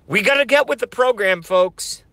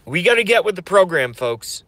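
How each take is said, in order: First: Pitched high, fast rally cry to the folks; preacher rousing his followers, high and fast; hoarse rally cry. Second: Fast rally cry, voice straining; rally cry again. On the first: Streamer rallying his followers with a fast, high shout. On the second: Streamer rallying followers again with a fast, strained cry. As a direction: push it out fast through a tired voice. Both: Acted. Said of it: "I'm losing my voice".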